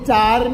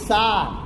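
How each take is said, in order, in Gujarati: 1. શબ્દ ch અવાજથી શરૂ થાય છે. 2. શબ્દ s અવાજથી શરૂ થાય છે. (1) "ચાર નહીં" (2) "એની જગ્યાએ સ અને શનું ઉચ્ચારણ થાય છે"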